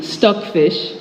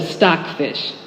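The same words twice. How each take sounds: First: "stuck fish" said slowly with a short u vowel; drawn-out Nigerian "stuck fish"; Nigerian pronunciation. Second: "stock fish" with the open American o vowel; plain American "stock fish"; American pronunciation. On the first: Naming the chewy fish as her family does, Nigerian way. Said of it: "instead of stock fish". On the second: Giving the American name for comparison, plain American way. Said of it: "stuck fish instead of". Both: Shown as a demonstration.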